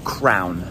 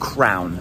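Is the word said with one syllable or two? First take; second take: one; one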